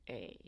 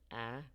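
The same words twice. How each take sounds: First: The vowel is the long a, as in made. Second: The vowel is the short a, as in mad. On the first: "to A" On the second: "changes the A sound from A"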